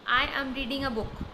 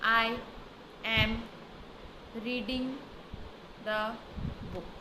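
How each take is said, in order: First: The sentence flows smoothly as one phrase. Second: Each word is said separately with breaks. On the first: The speaker calls it right. "Sentence के form में" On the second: The speaker calls it wrong. "Word सारे सही पढ़े गए लेकिन ये sentence के form में नहीं आया"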